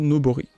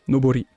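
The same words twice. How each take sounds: First: It is said casually, with a French-style pronunciation. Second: It is said carefully, with a more native-like pronunciation. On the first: The speaker calls it wrong. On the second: The speaker calls it right.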